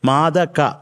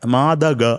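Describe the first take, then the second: First: The last consonant sounds like a hard k. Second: The last consonant sounds like a soft g. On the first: The speaker calls it right. "കായാണ്" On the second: The speaker calls it wrong. "കഴിഞ്ഞാൽ പിന്നെ കായാണ്, ഗായല്ല. മാതക അങ്ങനെ ആവരുത്"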